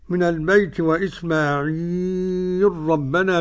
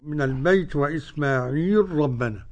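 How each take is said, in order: First: The long vowel is held for four counts. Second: The long vowel is held for two counts. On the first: "هذا المد أربعة" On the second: "هذا حركتين"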